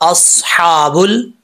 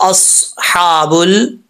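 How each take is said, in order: No difference in how they are said.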